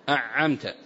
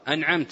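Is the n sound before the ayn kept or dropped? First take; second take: dropped; kept. First: The n sound is merged away into the ayn. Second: The n sound is clearly pronounced before the ayn. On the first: The speaker calls it wrong. "هنا أدغم النون في العين وهي لا تدغم" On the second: The speaker calls it right. "إظهار أنعمت"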